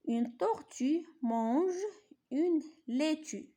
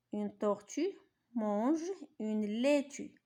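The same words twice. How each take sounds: First: Higher, slow, carefully shaped reading of Une tortue mange une laitue; model reading. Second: Said in the usual way. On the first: Shown as a demonstration. Teacher modelling Une tortue mange une laitue for pupils, higher and slow. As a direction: lift the voice and stretch each word of une laitue. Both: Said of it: "نقراو هادو قراءة جيدة".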